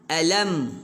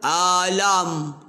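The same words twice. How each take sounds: First: The vowel sounds plain, with a normal mouth. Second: The vowel sounds overly open, with gaping mouth. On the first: The speaker calls it right. "buka mulut. Alam. Ha, begitu" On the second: The speaker calls it wrong. "Kalau nganga, alam. Tu nganga"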